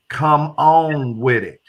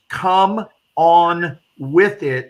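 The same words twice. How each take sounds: First: It is said loosely in a southern accent. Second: Each word is articulated clearly and carefully. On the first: The speaker calls it right. "You got to say it with a southern accent" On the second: The speaker calls it wrong. "but you don't pronounce it that way"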